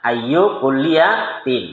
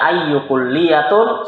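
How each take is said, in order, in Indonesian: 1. Kata kedua berakhir dengan bunyi 'tin'. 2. Kata kedua berakhir dengan bunyi 'tun'. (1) "Harusnya ayu kulliyatin" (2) "ayu kulliyatun salah"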